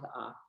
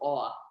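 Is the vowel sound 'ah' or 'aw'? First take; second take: ah; aw. First: The vowel is an open ah sound. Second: The vowel is a rounded aw sound. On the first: "So they both make the sound ah"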